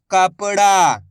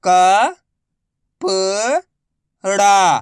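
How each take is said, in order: First: Said in the usual way. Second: Very slow, each syllable drawn out. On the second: Shown as a demonstration. Teacher sounding out a word for pupils, slow syllables. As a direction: spell the word out slowly for a child. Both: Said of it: "मैं किस तरीके से".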